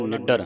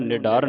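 First: ਨਿਡਰ with a doubled, tight ਡ, "niddar"; tight doubled consonant. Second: ਨਿਡਰ with a single, loose ਡ; wrong pronunciation. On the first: Teacher corrects the congregation, ਨਿਡਰ with tight doubled ਡ. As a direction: press hard on the ਡ in ਨਿਡਰ, doubling it. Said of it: "ਅਧਿਕ ਲਾ ਕੇ ਕੱਸ ਕੇ ਬੋਲਣਾ". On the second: Teacher shows the congregation's mistake, ਨਿਡਰ with undoubled ਡ. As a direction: say ਨਿਡਰ without doubling the ਡ. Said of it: "ਇਹਨੂੰ ਨਿਡਰ ਨਹੀਂ ਪੜ੍ਹਨਾ". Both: Shown as a demonstration.

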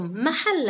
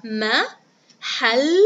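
First: Said in the usual way. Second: محل broken up as ma - hal - la; very slow, louder محل with gaps between syllables; split into syllables. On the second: Shown as a demonstration. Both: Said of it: "هيا بنا نقطعها".

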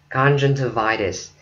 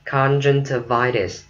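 No difference in how they are said.

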